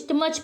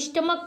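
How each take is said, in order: First: The word ends with a ch sound. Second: The word ends with a k sound. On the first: The speaker calls it wrong. "ना कि स्टमच पढ़ते हैं" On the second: The speaker calls it right. "स्टमक पढ़ते हैं"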